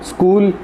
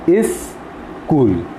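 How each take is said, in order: First: It starts directly with s, making one syllable. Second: A vowel is added before it, making two syllables. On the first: The speaker calls it right. "स्कूल one syllabic word है" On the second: The speaker calls it wrong. "वावल sound add करने से क्या होगा कि स्कूल जो है वो दो सिलेबल का हो जाएगा"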